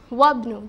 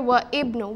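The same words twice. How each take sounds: First: The glottal onset is silent and the words link. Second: The glottal onset of 'ibn' is pronounced separately. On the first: The speaker calls it right. "the more advanced and the more um, nicer way to say this is وابن. Just connect it" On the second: The speaker calls it wrong. "don't say وابن"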